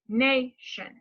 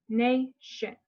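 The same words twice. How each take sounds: First: NAY-shun, first syllable stressed and slow. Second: Nation with NAY stressed, shun light; stress on first syllable. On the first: Speech therapist showing a client where to stress, stressed first syllable. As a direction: lean on the "na" of nation. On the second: Therapist modeling word stress for a client, stressed first syllable. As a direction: model nation, first part strong, second part weak. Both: Shown as a demonstration. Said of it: "like this".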